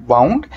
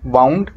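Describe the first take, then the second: No difference in how they are said.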